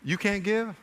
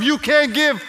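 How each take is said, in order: First: Soft, understated questioning; hushed, mild reproach as God; very gentle. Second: High, impassioned rebuke; passionate, high-pitched scolding as God; passionate yelling. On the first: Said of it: "here's another way he might say it". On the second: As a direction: raise the voice in reproach. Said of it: "I'm saying this out of my passion". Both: Acted.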